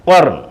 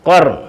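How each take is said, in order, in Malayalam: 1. ആദ്യത്തെ വ്യഞ്ജനം പൂർണ്ണവും ഭാരമുള്ളതുമാണ്. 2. ആദ്യത്തെ വ്യഞ്ജനം പൂർണ്ണവും ഭാരമുള്ളതുമാണ്.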